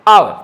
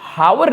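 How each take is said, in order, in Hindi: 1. शब्द सीधे एक स्वर ध्वनि से शुरू होता है। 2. शब्द की शुरुआत में एक साफ़ "h" ध्वनि सुनाई देती है। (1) "ये एच तो है ही नहीं, ये तो साइलेंट है" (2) "इसे हावर नहीं पढ़ा जाता है"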